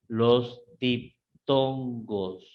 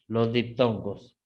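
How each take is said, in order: First: "diptongos" broken slowly into dip-ton-gos; slow, syllable by syllable. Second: Said in the usual way. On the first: Shown as a demonstration. Teacher naming diphthongs for the class, slow and syllabified. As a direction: draw out each syllable of "diptongos", with small gaps.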